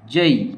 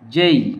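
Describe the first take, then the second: The two takes are said the same way.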